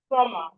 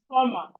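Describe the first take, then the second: First: The B sound is silent. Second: The B sound is silent.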